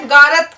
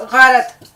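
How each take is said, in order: First: غارت said garat with a hard English g; wrong hard g. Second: غارت said gharat with a rasping throat gh; throaty gh. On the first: Teacher imitates students' common mistake, hard g. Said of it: "وہ جو جی والی جو آواز ہے وہ نہیں نکالنی ہے". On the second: Teacher gives students the right sound, throaty gh. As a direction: start غارت deep in the throat. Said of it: "بلکہ ہمیں اس میں ایچ لگانا ہوگا". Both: Shown as a demonstration.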